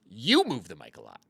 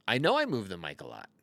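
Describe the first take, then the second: First: "You" punched, then a falling line; stress on YOU. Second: "I" hit hardest, the rest falling away; stress on I. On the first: Turning the joke on the viewer, stress on "You". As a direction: throw the weight onto "You". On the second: Owning up to the viewers, stress on "I". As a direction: lean on the first "I" to own it. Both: Shown as a demonstration.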